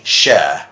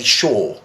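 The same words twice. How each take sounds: First: "sure" with the vowel of fur; usual pronunciation. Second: "sure" rhyming with shore; British pronunciation. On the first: Teacher telling viewers how he usually says it, model pronunciation. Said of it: "I usually say sure". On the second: Teacher showing what many people say, British pronunciation. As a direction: say "sure" with a long British "aw" vowel. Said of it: "perfect example of the sure". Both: Shown as a demonstration.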